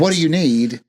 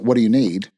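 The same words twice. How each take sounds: First: It is said in a cheerful, upbeat tone. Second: It is said in a flat, curt tone. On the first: The worker is being friendly and helpful. The speaker calls it right. "I could say" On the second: The worker seems impatient or rude. The speaker calls it wrong. "If your voice sounds different ... That doesn't sound as peppy"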